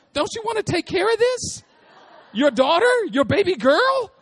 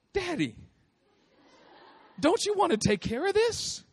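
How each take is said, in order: First: Put-on much higher, sweet pleading little girl; little daughter's voice. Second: Put-on high, pleading little girl with a laugh; little daughter's voice. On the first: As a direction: beg daddy like a tiny child, louder on the end. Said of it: "she did it just like that too". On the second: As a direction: coax daddy like a small child. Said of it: "And she goes".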